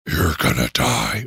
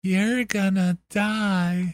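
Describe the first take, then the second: First: Low spooky voice. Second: Slow creepy voice. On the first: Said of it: "Scarier if it's like a". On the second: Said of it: "or like a". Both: Shown as a demonstration.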